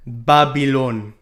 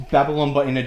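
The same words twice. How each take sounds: First: Put-on slow drawn-out Jamaican Babylon; Jamaican accent. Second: Said in the usual way. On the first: Shown as a demonstration. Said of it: "but in a Jamaican accent". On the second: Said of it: "Babylon, but in a Jamaican accent".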